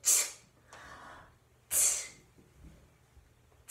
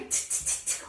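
First: The t sounds are spaced out slowly. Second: The t sounds are repeated rapidly. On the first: "Can you go slowly?" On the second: "We can go quickly"

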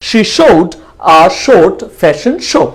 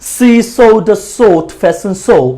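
First: The first word starts with an sh sound. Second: The first word starts with an s sound. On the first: The speaker calls it right. "সো এটা হচ্ছে ইংরেজির প্রমিত উচ্চারণ" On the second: The speaker calls it wrong. "তাহলে এটা ঢাকাইয়া accent হয়ে যেত"

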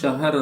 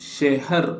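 First: The first vowel sounds like 'a'. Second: The first vowel sounds like 'e'. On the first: "ನೀವು ಶಹರ್ ಅಂತ ಉಚ್ಚಾರ ಮಾಡಿದ್ರು ಸರಿಯೇ" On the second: "ಇದನ್ನು ಶೆಹರ್ ಅಂತ ಉಚ್ಚಾರ ಮಾಡ್ತಾರೆ"

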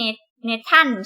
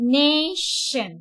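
First: The middle consonant is a plain 't' sound. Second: The middle consonant is a hushing 'sh' sound. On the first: The speaker calls it wrong. "ไม่ใช่" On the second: The speaker calls it right. "ต้องออกเสียงว่า"

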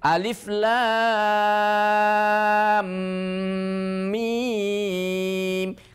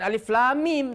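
First: The m sounds merge with a held nasal hum. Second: The m sounds are kept apart without nasal hum. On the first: The speaker calls it right. "tapi alif lam mim. Kan idgham" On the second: The speaker calls it wrong. "bukan alif lam mim"

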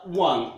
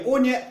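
First: It is said as one syllable, 'wun'. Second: It is said as two syllables, 'o-ne'. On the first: The speaker calls it right. "это one и всегда" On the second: The speaker calls it wrong. "это не оне"

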